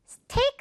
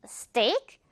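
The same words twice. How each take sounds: First: Steak with an airy Korean-style t; mistaken aspirated t. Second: Steak with a tight ㄸ-like t; no puff after the s in steak; tense t. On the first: Teacher showing what to avoid, airy-t steak. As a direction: puff the t in steak. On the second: Teacher correcting learners, tense-t steak. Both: Shown as a demonstration. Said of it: "steak 아니고 steak".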